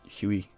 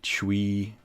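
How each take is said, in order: First: The name begins with an 'h' sound. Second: The name begins with a 'ch' sound. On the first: "Maybe the C silent. Maybe it's just Huey" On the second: "Maybe Chui"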